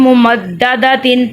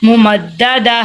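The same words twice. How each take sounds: First: ممددتن with the final "tin" fully sounded; non-pausal "tin" ending. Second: ممددہ slowly, ending on an "h" instead of "tin"; pausal "h" ending. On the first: Teacher showing reading without a stop, "tin" ending pronounced. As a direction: end ممددتن on a clear "tin". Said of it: "ہم ادھر وقف نہیں کریں گے". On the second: Teacher showing how to read at a stop, h ending. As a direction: close ممددہ with a breathed h. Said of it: "ادھر ہم نے ہا کی آواز نکالنی ہے". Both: Shown as a demonstration.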